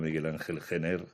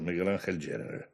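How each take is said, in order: First: The surname is pronounced the Spanish way. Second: The surname is pronounced the English way. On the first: This is how people usually say the name. "a mí me han llamado toda la vida" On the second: This is how the name is properly said. "En realidad es un apellido inglés"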